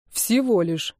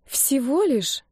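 First: A mild snort, flat and falling. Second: Drawn out and let down, pitch up high; disappointed drawl. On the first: Denis snorts back at Maria, mildly mocking. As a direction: huff the words back dryly. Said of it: "фыркнул он". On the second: She drawls to Denis, disappointed by his tiny secret. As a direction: stretch it out, clearly let down. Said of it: "разочарованно протянула я". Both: A narrator's reading.

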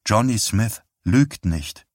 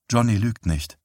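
First: Slower, each word set down flatly; slow insistent repeat. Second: Understated toneless repeat. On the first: Wife insisting to her husband, slow and toneless. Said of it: "wiederholte sie". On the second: Wife repeating herself to her husband, understated and toneless. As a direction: say it without any colour. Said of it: "wiederholte sie tonlos". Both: Acted.

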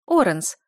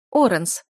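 First: Loud urgent calling of Оренс; frantic call. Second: Оренс called out as she catches herself; sudden realisation. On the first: Wife calling her husband in panic, loud. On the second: Wife stopping her husband at the portal, startled. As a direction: call Оренс on noticing him leave. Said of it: "опомнилась герцогиня". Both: A narrator's reading.

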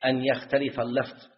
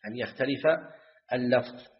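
First: Said in the usual way. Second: "أن يختلف" then a pause before "اللفظ", each word set apart. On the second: Shown as a demonstration. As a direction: spell out "أن يختلف ... اللفظ" with a clear break for the students. (تكرار بتأنٍّ مع وقفة قبل "اللفظ") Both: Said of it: "teacher repeats for emphasis".

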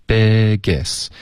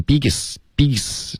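First: "biggest" with clearly opened vowels. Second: "biggest" with a closed, tense vowel; tight vowel. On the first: Shown as a demonstration. Teacher corrects student, open clear vowel. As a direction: open the mouth wide on "biggest". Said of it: "嘴巴要张开". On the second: Retold or imitated. Teacher imitates student's slip, closed tight vowels. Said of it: "你现在发成biggest".

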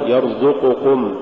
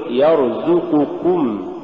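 First: يرزقكم with a thick, dark zay; wrong heavy zay. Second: Slow يرزقكم with a thin zay; correct light zay. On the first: Teacher shows the error to avoid, heavy zay in يرزقكم. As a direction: darken the ز of يرزقكم. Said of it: "ولا تقل". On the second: Teacher models the correct word, light zay in يرزقكم. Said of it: "قل". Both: Shown as a demonstration.

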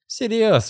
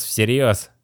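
First: Higher, firm insistence; higher girl's firm echo; insistent girl. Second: Said in the usual way. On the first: Acted. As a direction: repeat it to make it stick. Kitty insists.

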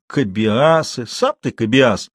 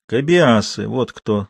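First: Slow, dismissive mockery; scornful echo. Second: Understated mysterious reveal; name them as a secret, trailing down; lightly enigmatic answer. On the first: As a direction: throw the word back, stretching it. Жуков передразнивает Матвея. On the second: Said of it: "загадочно выговорил Матвей". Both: A narrator's reading.

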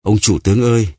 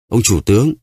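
First: Calling out. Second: Higher, pleading cry to the chief; desperate call. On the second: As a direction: call out to him, begging from the floor. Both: A narrator's reading. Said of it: "nằm phù phục dưới đất và kêu lên".

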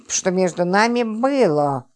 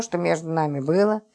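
First: Slow, gloating, leaning hard on было; gloating stress on было. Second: Softened repeat. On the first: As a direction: spell out "было" slowly and pointedly, as a spiteful reminder. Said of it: "Злорадно напомнила Липочка, делая особый акцент на последнем слове". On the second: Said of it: "перестал орать и даже смягчился". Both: A narrator's reading.

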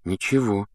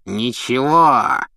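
First: Said in the usual way. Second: Slow, trembling echo of the word; angry old caretaker. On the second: Acted. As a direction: throw his word back at him. Filch repeats, jaw trembling.

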